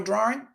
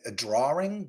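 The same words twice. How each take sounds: First: It is said in the speaker's ordinary accent. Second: It is said in a Boston accent.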